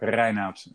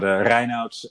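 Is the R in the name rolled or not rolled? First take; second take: rolled; not rolled. First: The R is strongly rolled. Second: The R is said without a roll.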